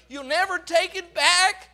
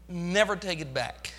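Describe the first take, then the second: First: "back" pushed up with a rising end; stress on back. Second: Gentle promise. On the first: Shown as a demonstration. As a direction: drive "back" home as a triumphant claim. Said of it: "You'll never take it from me". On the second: Acted. God's voice promising softly.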